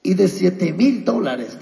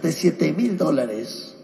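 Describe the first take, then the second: First: Said in the usual way. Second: "de siete mil dólares" repeated softer and slower; softer echo. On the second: Acted. Pastor repeating the small starting sum to the church, softer and slower. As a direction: let the repeat sink in quietly. Repeats the amount, then drops.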